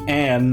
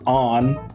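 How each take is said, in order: First: The vowel sounds like the one in 'cat'. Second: The vowel sounds like the one in 'father'. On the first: The speaker calls it right. "her name should be Anne" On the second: The speaker calls it wrong. "not on"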